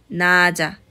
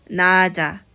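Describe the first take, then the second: The two takes are said the same way.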